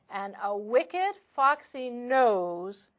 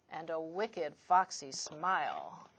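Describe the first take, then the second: First: Said in the usual way. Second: "wicked, foxy smile" dropped much lower and softer; sly hushed. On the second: A narrator's reading. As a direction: let "wicked, foxy smile" sink to a low, soft hush. Repeated wicked foxy phrase.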